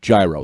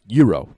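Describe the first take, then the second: First: The word is said with an American pronunciation. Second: The word is said with a Greek pronunciation. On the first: It follows the speaker's own everyday pronunciation. "So I'll pronounce it like an American" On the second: It follows the original language's pronunciation. "I know the pronoun- correct pronunciation is gyro"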